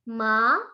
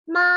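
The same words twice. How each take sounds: First: It is said with the second tone. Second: It is said with the first tone. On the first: "untuk nada kedua" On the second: "Untuk nada pertama"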